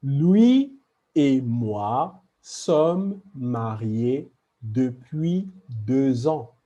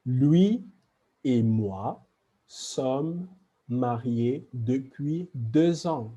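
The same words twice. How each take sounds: First: Slow model sentence. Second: Said in the usual way. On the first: Shown as a demonstration. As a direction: read the example slowly, stressing "lui". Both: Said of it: "And last example".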